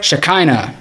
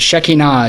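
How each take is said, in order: First: The word is said in an anglicized way. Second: The word is said in a Hebrew-like way. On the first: This is how outsiders to the tradition say it. The speaker calls it wrong. "was how Gentiles pronounce it" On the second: This is the proper traditional form. The speaker calls it right. "is the proper"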